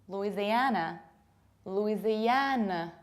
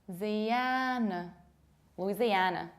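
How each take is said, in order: Both takes have the same delivery.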